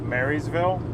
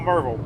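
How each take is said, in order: First: Each syllable of the name is said fully. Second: The syllables of the name are quickly run together.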